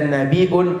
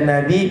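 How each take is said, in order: First: The word ends in an added 'iun' ending. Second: The word ends in a plain 'i' sound. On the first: "dibaca Nabiun boleh" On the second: "Dibaca Nabi boleh"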